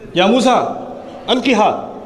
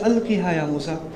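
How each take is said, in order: First: It is said in a harsh tone. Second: It is said in a soft tone.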